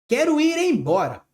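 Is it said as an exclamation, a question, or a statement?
exclamation. It is said as an exclamation. It expresses a wish or strong feeling. "Ponto de exclamação"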